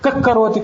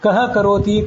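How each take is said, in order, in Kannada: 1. h ಮುಂದಿನ ವ್ಯಂಜನದೊಡನೆ ಬೇಗ ಬೆರೆಯುತ್ತದೆ. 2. h ತನ್ನದೇ ನಿಧಾನವಾದ, ಪ್ರತ್ಯೇಕ ಉಚ್ಚಾರಾಂಶ. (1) "ಹೀಗೆ ಉಚ್ಚಾರ ಮಾಡಿದರೆ ಅದೇ ಜಿಹ್ವಾಮೂಲ್ಯ" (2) "ಬಿಡಿಸಿ ಬಿಡಿಸಿ"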